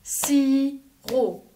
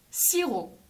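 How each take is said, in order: First: "Sirop" in two separate beats; "Sirop" broken slowly into si, then rop; split into syllables. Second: Said in the usual way. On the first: Shown as a demonstration. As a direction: clap out "Sirop" with a gap between si and rop. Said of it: "On tape dans les mains".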